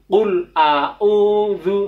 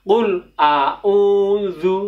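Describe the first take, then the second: No difference in how they are said.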